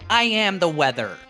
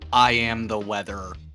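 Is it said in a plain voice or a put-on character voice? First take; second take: character voice; plain voice. First: It is said in a put-on character voice. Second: It is said in a plain, ordinary voice.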